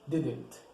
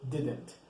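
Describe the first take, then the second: First: It is said as one contracted word. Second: It is said as one contracted word.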